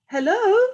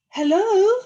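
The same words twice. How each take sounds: First: High, loud hello echoing back; echoed call. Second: High, loud questioning hello; calling out. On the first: The echo calling back across the pond, high and loud. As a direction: answer like the echo. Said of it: "said the voice from across the pond". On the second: Little Beaver calling across the pond, loud and high. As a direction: call across the water. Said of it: "he called". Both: A narrator's reading.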